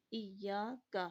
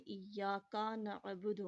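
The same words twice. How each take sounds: First: ایاک with a short light zabar on the کاف; correct pronunciation. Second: ایاک with the کاف run into the alif, "iyyaka-a"; wrong pronunciation. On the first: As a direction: keep the کاف in ایاک light, not stretched. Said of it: "کاف زبر کا ہوگا". (ایاک میں کاف پر ہلکا زبر) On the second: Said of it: "تلفظ غلط ہو جائے گا". (کاف کو الف سے ملا کر، غلط) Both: Shown as a demonstration.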